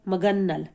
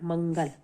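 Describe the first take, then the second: First: The nasal sound follows the second syllable. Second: The nasal sound follows the first syllable. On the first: The speaker calls it wrong. "तो ये गलत है" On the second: The speaker calls it right. "ये सही है मंगल"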